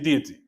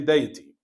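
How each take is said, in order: First: It is said the way American speakers say it. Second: It is said the way British speakers say it. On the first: "Here in America they say deity" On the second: "in Britain they say deity"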